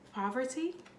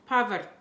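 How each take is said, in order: First: The name is said with a put-on accent. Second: The name is said in a plain accent.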